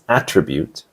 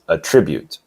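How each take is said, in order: First: The stress is on the first syllable. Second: The stress is on the second syllable. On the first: It is used as a noun. "The stress is on the first syllable for the noun attribute" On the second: It is used as a verb. "on the second syllable for the verb attribute"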